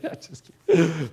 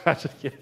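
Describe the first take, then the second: First: Said in the usual way. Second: Soft, chuckling retraction; laughing it off. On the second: Real, not acted. Pastor laughing off his shaved-head joke, softly chuckling. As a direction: take it back through a laugh.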